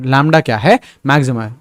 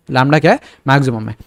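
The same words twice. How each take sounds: The two takes are said the same way.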